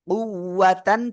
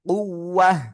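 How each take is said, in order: First: The word ends with a full 'tan' sound. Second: The word ends with a silent-vowel 'h' sound. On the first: The reading continues without stopping. "আমরা সিম্পল পড়লে কুওয়াতান পড়বো" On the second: The reader stops at this word. "থেমে পড়ি তাহলে এই যে গোলটা রয়েছে এই গোলটা আপনার হা হয়ে যাবে"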